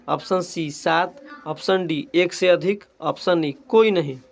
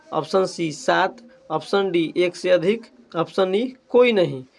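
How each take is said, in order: No difference in how they are said.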